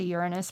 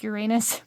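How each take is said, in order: First: The name is said in a plain, standard way. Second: The name is said in a joking, comical way. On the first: It is the ordinary, unfunny way to say it. "I could say Uranus, but where's the fun in that?" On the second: It hints at a rude pun for fun. "I say it like Uranus for, you know, just it's slightly comical"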